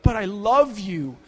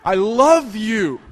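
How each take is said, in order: First: Slow, drawn-out plea; pathetic pleading. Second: Very slow and louder, begging outright; pathetic desperate plea. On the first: Begging the woman shoving him out the door, slow pathetic plea. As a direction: beg her to stay, pathetic and slow. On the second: Begging her again as she shoves him out, louder desperate plea. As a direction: raise the voice and stretch every word, desperate. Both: Retold or imitated. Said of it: "just pathetic".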